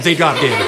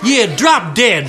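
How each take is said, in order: First: Said in the usual way. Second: Slow, drawn-out bratty insult; slow rude insult. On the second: Acted. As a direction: stretch it out to annoy. Second girl drawls again.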